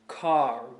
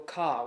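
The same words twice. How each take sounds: First: The R at the end is clearly pronounced. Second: The R at the end is dropped. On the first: "We have a strong R sound" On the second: "Whereas with a British accent, you might go car"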